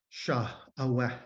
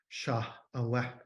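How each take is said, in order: No difference in how they are said.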